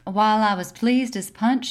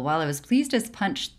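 First: It is read in a put-on Carolina accent. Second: It is read in the speaker's own plain accent. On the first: "you do it in a Carolina accent?" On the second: "I'm not reading this in a British accent"

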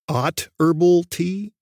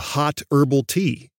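First: The first word starts without an h sound. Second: The first word starts with an h sound.

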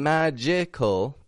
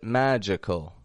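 First: The middle vowel is a full, clear vowel. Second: The middle vowel is reduced to a schwa. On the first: The speaker calls it wrong. "I'm not saying magical" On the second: The speaker calls it right. "but magical. Magical. Making a schwa"

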